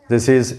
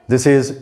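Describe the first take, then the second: Both takes have the same delivery.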